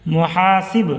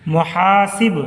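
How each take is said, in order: No difference in how they are said.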